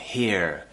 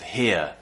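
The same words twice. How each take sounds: First: The final R sound is clearly pronounced. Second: The final R sound is not pronounced. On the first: The speaker calls it wrong. "they pronounce the R quite a lot" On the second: The speaker calls it right. "instead of here"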